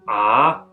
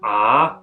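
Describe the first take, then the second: First: It is said with the second tone. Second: The same.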